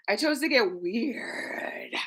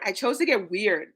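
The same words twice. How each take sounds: First: A slow secret whisper. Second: Said in the usual way. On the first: Shown as a demonstration. Host repeats her line to viewers as a slow whisper. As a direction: breathe it out slowly with no voice.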